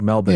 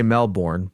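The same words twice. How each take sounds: First: It is said in an Australian pronunciation. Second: It is said in an American pronunciation. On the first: This is how someone from Australia says it. "but it sounded like Melbourne to me" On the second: This is how the speaker normally says it. "I would say Melbourne"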